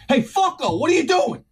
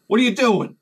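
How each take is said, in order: First: High, punchy challenge; aggressive confrontation. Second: Milder challenge, pitch somewhat raised; toned-down confrontation. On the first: Worker catches guy in his tool area, aggressive high challenge. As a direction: confront him with a raised, high-pitched voice. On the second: Worker questions guy with a flashlight, toned-down challenge. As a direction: ask it pointedly, holding the anger back. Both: Retold or imitated. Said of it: "maybe I don't say it like that".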